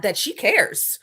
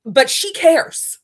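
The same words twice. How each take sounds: First: Said in the usual way. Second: "But she cares" slow, louder, hitting "cares"; stress on cares. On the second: Shown as a demonstration.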